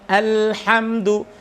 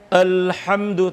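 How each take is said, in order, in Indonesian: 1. Bunyi a pembuka itu terang dan tipis. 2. Bunyi a pembuka itu gelap dan berat.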